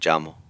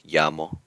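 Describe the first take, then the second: First: The first sound is like English 'j'. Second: The first sound is like English 'y'. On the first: This is how it sounds in Central America. "toward Central America, it takes on more of a J sound" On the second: This is how it sounds around Mexico. "around Mexico, it makes the English y sound"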